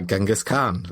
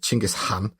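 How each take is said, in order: First: The name is said the familiar English way. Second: The name is said the native Mongolian way. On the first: "so let's go with Genghis Khan" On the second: "the correct way to pronounce it is Chinggis Khan"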